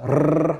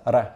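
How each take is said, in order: First: The R is a rolled trill. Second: The R is a single quick flap. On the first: "at the beginning or end of a word, it's a R like that" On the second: "Otherwise, it's a R ... just like in a word like matador"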